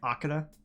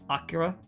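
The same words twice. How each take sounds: First: The middle consonant sounds like a d. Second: The middle consonant sounds like an r. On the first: The speaker calls it wrong. "but I keep pronouncing it Akira" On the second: The speaker calls it right. "it's it's Akira"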